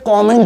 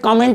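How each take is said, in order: First: The first vowel is an open 'aw' sound. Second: The first vowel is a short 'uh' sound. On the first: The speaker calls it right. "कॉमेंट बोलते हैं" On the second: The speaker calls it wrong. "कमेंट नहीं बोलते"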